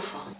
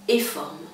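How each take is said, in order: First: The first letter is said as a plain f sound. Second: The first letter is said as its name, eff. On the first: The reader sounds the letter and reads the word naturally. The speaker calls it right. "deviendra naturellement le mot forme" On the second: The reader names the letter instead of sounding it. The speaker calls it wrong. "a tendance en premier lieu à prononcer la lettre"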